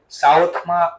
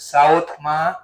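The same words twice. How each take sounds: The two takes are said the same way.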